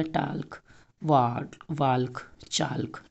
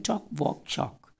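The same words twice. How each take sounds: First: टाल्क, वाल्क, चाल्क said with the L sounded, as the wrong way; wrong pronunciation. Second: टॉक, वॉक, चॉक with a silent L, said as tok, wok, chok; correct pronunciation. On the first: Teacher shows kids the wrong way, sounding the L in टाल्क. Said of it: "ऐसे नहीं बोलते हैं". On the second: Teacher gives kids the correct टॉक, वॉक, चॉक with the L silent. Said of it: "बोलते हैं टॉक". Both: Shown as a demonstration.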